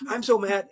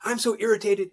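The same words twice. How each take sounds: First: Higher, louder mock gripe; mock mad employee. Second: Mock irritated employee. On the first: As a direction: play the angry staffer lightly. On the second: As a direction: whine it like an annoyed staffer. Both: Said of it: "they typically give me the emotion".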